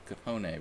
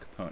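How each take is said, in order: First: The name is said with an Italian pronunciation. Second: The name is said with an American pronunciation. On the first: "in Italian, it's Capone" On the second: "if we want to say it in the American way"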